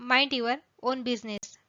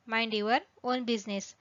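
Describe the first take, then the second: No difference in how they are said.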